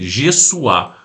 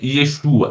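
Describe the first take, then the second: First: The name begins with a j sound. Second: The name begins with a y sound. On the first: The speaker calls it right. "é Jessuá" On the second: The speaker calls it wrong. "mas não é Yeshua"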